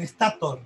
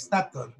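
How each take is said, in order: First: "estator" stressed on the A, es-TA-tor; Spanish pronunciation. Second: "estator" stressed on the last syllable, es-ta-TOR; correct pronunciation. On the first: Teacher showing students how Spaniards say "estator", es-TA-tor. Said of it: "Porque tiene acento en la A". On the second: Teacher giving students the right stress of "estator", es-ta-TOR. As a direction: say "estator" with the weight on the final TOR. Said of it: "en realidad es estator". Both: Shown as a demonstration.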